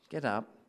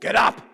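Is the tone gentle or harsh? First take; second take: gentle; harsh. First: It is said in a soft, gentle tone. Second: It is said in a harsh, impatient tone.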